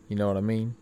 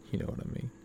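First: Said in the usual way. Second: Breathy whispered echo. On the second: Shown as a demonstration. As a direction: whisper it to yourself. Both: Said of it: "repeats line, second whispered".

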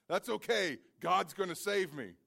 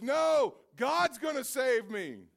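First: Said in the usual way. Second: High, loud, slow shouted refusal; stubborn shout. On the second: Acted. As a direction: yell back at the rescuers. Man refuses helicopter, shouting.

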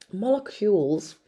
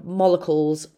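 First: Molecules said carefully as MOL-uh-kyoolz; corrected pronunciation. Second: Molecules said as MOL-uh-kulz; slurred pronunciation. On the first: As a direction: say molecules with a clear KYOOLZ ending. Repeats the word to correct it. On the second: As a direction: say molecules without the y sound. Slips, then corrects the word. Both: Real, not acted.

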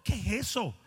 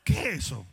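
First: Said in the usual way. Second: Lower, louder scoffing take on eso; lower, scornful "¿Qué es eso?"; mocking question. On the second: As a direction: scoff at the idea in a low voice.

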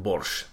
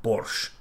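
First: Said in the usual way. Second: Borscht said in a light Russian accent; a quick mock Russian accent on borscht. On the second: Shown as a demonstration. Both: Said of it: "but I'm trying to do my Russian accent here".

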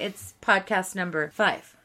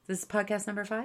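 First: Said in the usual way. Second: "podcast number five?" rising fast and questioning at the end; quick disbelieving rise on "five?"; surprised question. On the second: Shown as a demonstration.

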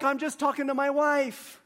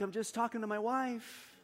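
First: High, slightly raised plea of innocence; re-enacted indignant excuse; retold defensive protest. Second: Softer, high little plea; re-enacted feeble protest; retold meek excuse. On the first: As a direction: protest to the man scolding you. Defends himself against the yelling man. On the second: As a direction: plead innocence in a small, helpless voice. Helpless excuse after being yelled at.

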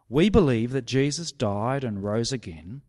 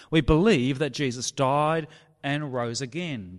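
First: Said in the usual way. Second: "believe" hit louder with a falling tune; stress on believe. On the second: Shown as a demonstration. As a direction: lean hard on "believe" to remind them. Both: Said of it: "starts with what they already believe".

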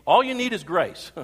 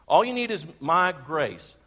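First: "All" punched up front, louder and higher; stress on ALL. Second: "All" leaned on, the line drawn out slowly with a laugh; slow, laughing emphasis. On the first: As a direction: pastor to congregation, showing Greek word order with "All" hit hard. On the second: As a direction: pastor to congregation, savouring the reworded phrase slowly, laughing. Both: Shown as a demonstration. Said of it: "the adjective sufficient or all you need in the Greek appears right at the very beginning".

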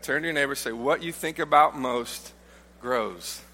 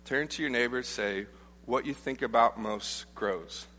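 First: Preacher urges the congregation to say it, with more push; emphatic repeat. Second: Said in the usual way. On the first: Shown as a demonstration. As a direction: stress on "about" and a firm drop on "grows". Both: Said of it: "Go ahead".

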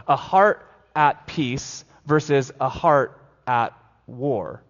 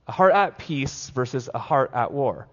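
First: "heart at war" drawn out slowly; slow emphatic. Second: Said in the usual way. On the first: Shown as a demonstration. Pastor contrasting heart at war, slowly stressed.

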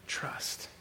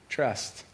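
First: Breathy whisper on trust; hushed, unvoiced trust. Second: Said in the usual way. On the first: Shown as a demonstration. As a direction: whisper the word trust like a secret.

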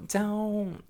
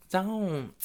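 The two takes are said the same way.

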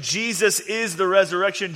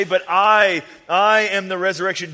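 First: Said in the usual way. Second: Loud, fast declaration; emphatic. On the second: Acted. Jesus proclaiming himself to Martha, loud and fast. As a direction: proclaim it with force.

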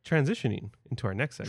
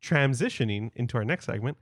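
First: Quick, throwaway segment intro; rushed mumble. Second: Fuller, deliberate segment intro; announcer voice. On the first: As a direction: toss off the line hurriedly. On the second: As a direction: announce it like a host. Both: Shown as a demonstration. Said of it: "Transition. Come on".

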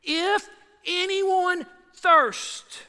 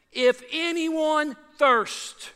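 First: Drawn-out call, pitched higher; slow dramatic cry, higher still. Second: Drawn-out, raised call; slow raised cry of Jesus; cried out. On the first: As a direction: cry it out slow and high to the whole crowd. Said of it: "That's dramatic". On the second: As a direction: call it out slowly to the crowd. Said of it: "It says he cried out". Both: Acted.

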